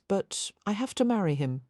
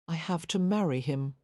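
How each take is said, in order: First: Said in the usual way. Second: "I have to marry him" repeated with quiet weight on "marry"; quiet emphasis. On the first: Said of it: "Helen repeated the words". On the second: A narrator's reading. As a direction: press "marry" softly but firmly. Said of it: "with quiet emphasis".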